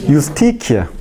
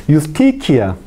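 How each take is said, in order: The two takes are said the same way.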